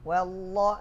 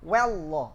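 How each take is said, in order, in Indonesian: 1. Huruf waw diucapkan dengan halus dan stabil. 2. Huruf waw diucapkan dengan kasar dan berlebihan. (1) "wallah sudah stabil" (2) "dia masih kasar mengucapkan wallah. Nah, ini masih mubalaghah"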